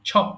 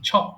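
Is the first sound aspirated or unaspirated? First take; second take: aspirated; aspirated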